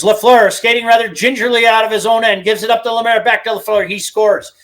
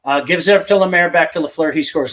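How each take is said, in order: First: Imitating the radio announcer's goal call, higher and louder; play-by-play call. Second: Said in the usual way. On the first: Host recreating the old Lafleur goal call for his co-host, higher and louder play-by-play. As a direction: rattle it off like the broadcaster calling the goal.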